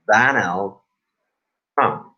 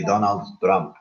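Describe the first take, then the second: First: "Donald Trump" said with the corrected vowel; correct pronunciation. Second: "Donald Trump" said the common mistaken way; wrong pronunciation. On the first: Teacher showing the correct "Donald Trump" to the class, carefully pronounced. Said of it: "It's actually Donald Trump". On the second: Teacher showing the wrong "Donald Trump" to the class, mispronounced. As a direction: say "Donald Trump" with the vowels learners usually use. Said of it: "not actually Donald Trump". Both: Shown as a demonstration.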